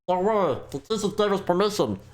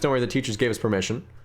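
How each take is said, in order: First: It is said in a put-on character voice. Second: It is said in his normal own voice.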